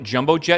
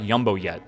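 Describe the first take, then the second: First: The first word begins with a J sound. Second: The first word begins with a Y sound.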